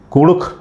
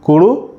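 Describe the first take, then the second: First: कुड़ुख said with a plain Hindi ख ending; the wrong way, कुड़ुख with ordinary ख at the end; wrong pronunciation. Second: कुड़ुख ending in the Kurukh ख sound marked with a halant dot; the right way, कुड़ुख with the dotted ख at the end; correct Kurukh pronunciation. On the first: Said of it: "कुड़ुख नहीं". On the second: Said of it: "जैसे कुड़ुख". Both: Shown as a demonstration.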